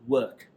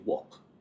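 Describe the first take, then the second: First: The vowel is a soft 'uh' with no R. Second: The vowel sounds like 'or', as in walk. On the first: "they pronounce it as U H. So work. That's the British way" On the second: "Nigerians will say walk"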